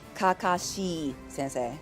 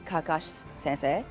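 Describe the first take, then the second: First: The vowels after the s sounds are fully voiced. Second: The vowels after the s sounds are nearly silent. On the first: "instead of" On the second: "You can say"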